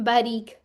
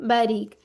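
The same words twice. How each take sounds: Both takes have the same delivery.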